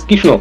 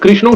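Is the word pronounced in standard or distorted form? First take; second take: distorted; standard. First: The word is pronounced in a distorted way. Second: The word has its standard Bengali pronunciation. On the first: This imitates how someone else says it. The speaker calls it wrong. "বরং কৃষ্ণ" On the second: This is how the word should be said. The speaker calls it right. "তিনি কৃষ্ণ উচ্চারণ করতে পারেন না"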